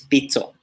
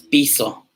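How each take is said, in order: First: The middle consonant is ts. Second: The middle consonant is a plain s. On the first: The speaker calls it right. "es pizzo" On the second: The speaker calls it wrong. "no es piso"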